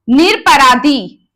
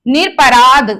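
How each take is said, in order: First: निरपराधी drawn out slowly, with the final ी vowel; wrong form, slow. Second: निरपराध ending crisply on द with no vowel after it; correct form. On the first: Teacher reading the wrong option slowly, निरपराधी with final ee. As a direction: say निरपराधी slowly, ending on a long ee. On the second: Teacher giving the corrected word, निरपराध ending on द. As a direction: cut निरपराध off at the द. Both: Shown as a demonstration. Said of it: "निरपराध होता है".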